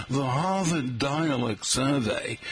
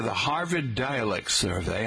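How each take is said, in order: First: Slow Boston accent, dropping the r's; exaggerated r-less Boston accent. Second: Said in the usual way. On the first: Shown as a demonstration. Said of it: "oh, I should say, like". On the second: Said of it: "oh, I should say".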